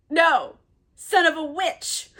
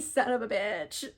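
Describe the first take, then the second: First: Higher, louder, "witch" hit as the correction; stress on witch. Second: Said in the usual way. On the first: Real, not acted. Teller corrects the insult to Caliban, comic stress on "witch". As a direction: punch "witch" as a joking correction.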